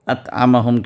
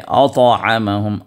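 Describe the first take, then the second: First: The t sound is light and thin. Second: The t sound is heavy and thick. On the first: The speaker calls it wrong. "अतअमहुम के बजाय" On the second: The speaker calls it right. "उसी ता को आप मोटा अदा करें"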